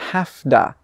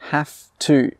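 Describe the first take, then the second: First: It blends into one word with a d sound. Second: Both words are said fully and separately.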